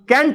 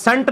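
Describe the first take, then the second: First: The word begins with a 'k' sound. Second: The word begins with an 's' sound. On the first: The speaker calls it right. "कैंट होता है" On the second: The speaker calls it wrong. "सेंट नहीं होता"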